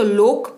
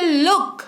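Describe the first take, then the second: First: लोक with a long "oh" vowel, like "loke"; लोक rhyming with "poke"; wrong long "o". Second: लुक with a short "u", as in "put"; लुक modelled with a short "oo" vowel; correct short "u". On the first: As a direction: say लोक with a rounded "oh" as the mistaken reading. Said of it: "तो इसको तो लोक पढ़ना". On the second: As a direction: say लुक short, closing firmly on the k. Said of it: "इसको पढ़ते हैं लुक". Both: Shown as a demonstration.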